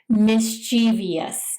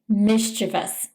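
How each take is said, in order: First: The stress falls on a later syllable. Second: The stress falls on the first syllable. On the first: The speaker calls it wrong. "putting the emphasis on the wrong syllable" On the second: The speaker calls it right. "It's actually pronounced mischievous"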